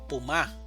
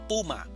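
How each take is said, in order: First: The stress is on the second syllable. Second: The stress is on the first syllable. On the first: The speaker calls it wrong. "Nosotros no decimos puma" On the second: The speaker calls it right. "decimos puma. Pu es donde tenemos la mayor fuerza de entonación"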